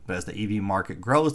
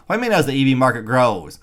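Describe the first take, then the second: First: Said in the usual way. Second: Fast, louder, mocking disbelief; incredulous scoff. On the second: Real, not acted. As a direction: throw the phrase back at them, scoffing.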